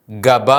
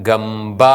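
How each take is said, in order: First: ഗബ said short with no doubling; single b in ഗബ; wrong reading. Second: ഗംബ with doubled b; correct reading. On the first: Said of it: "അല്ല". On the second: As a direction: lean on the double consonant in ഗംബ. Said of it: "എന്നാണ് വായിക്കുന്നത്". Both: Shown as a demonstration.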